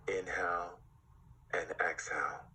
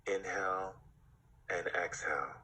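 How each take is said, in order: Both takes have the same delivery.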